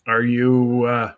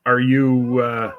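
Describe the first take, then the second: No difference in how they are said.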